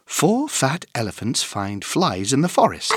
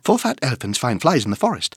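First: It is said at a fast speed. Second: It is said at a very fast speed. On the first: "plus vite!" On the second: "encore plus vite!"

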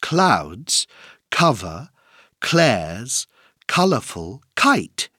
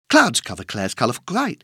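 First: The sentence is spoken at a moderate pace. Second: The sentence is spoken at a very fast pace.

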